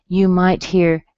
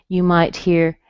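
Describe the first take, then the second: The two takes are said the same way.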